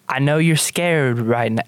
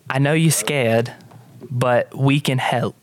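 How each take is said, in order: First: Put-on gentle line sliding into country accent; slipping country accent. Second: Put-on slightly halting British accent; attempted British accent. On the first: Hope soothes a scared girl, accent slipping country. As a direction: let a country accent creep in. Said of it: "slipping into, like, country accent". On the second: Hope tells scared girl we can help, tentative British accent. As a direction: try a careful, eloquent British voice. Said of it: "British, isn't it?".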